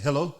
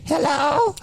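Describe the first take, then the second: First: Said in the usual way. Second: Much higher put-on old-lady hello. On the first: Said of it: "And then I came back to the phone". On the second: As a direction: disguise your voice as an old lady. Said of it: "So I disguised my voice first".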